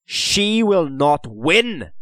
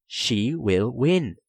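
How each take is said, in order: First: Slow, high, loud defiance; fierce. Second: Slow, measured statement; patient certainty. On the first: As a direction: defy it fiercely, word by word. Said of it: "he said fiercely". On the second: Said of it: "Dylan sighed patiently". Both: A narrator's reading.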